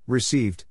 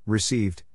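No difference in how they are said.

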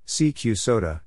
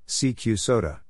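No difference in how they are said.

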